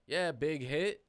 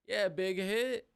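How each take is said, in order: First: Said in the usual way. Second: Much higher and slower, goofy; high drawn-out voice. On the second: Shown as a demonstration. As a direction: stretch it out in a silly high voice.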